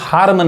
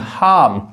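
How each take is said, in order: First: The R sound is pronounced after the vowel. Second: The R sound is left out after the vowel. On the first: The speaker calls it wrong. "इसको हार्म नहीं" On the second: The speaker calls it right. "वो आर silent होता है"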